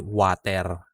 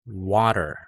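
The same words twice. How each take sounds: First: A full E vowel is heard before the R. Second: No full vowel is heard before the R. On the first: The speaker calls it wrong. "Hindi water" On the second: The speaker calls it right. "we're dropping the E sound before the R sound"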